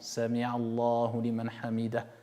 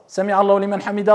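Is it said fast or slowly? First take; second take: slowly; fast. First: It is said slowly and calmly. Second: It is said fast, rushed.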